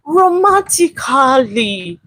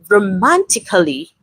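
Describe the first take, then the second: First: Romantically stretched slow and pitched higher; stress on romantically. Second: Said in the usual way. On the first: Shown as a demonstration. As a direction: lean hard into every syllable of romantically, slowly. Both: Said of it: "now emphasis on this word".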